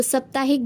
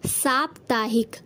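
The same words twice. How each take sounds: First: साप्ताहिक with short first vowel, "saptaahik" like "sup"; wrong form. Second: साप्ताहिक slowly, long aa in "saap"; correct form. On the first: Teacher showing the wrong word, साप्ताहिक with short first a. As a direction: say साप्ताहिक with a quick 'sa'. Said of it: "गलत है". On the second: Teacher giving the correct word, साप्ताहिक slow with long saa. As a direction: stretch the first syllable of साप्ताहिक: saap-taahik. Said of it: "इसका शुद्ध रूप". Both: Shown as a demonstration.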